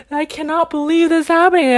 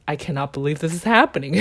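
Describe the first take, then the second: First: High, loud, exasperated disbelief; retold anger. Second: Amused disbelief. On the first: Filled with anger at the compliance rules, high loud retold exasperation. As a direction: re-enact angry disbelief, voice pushed up. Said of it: "I was filled with anger". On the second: Retold or imitated. Finding it more funny than angry, quick amused disbelief. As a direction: say it quickly, giggle right after. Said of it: "I just found it more funny than, than angry".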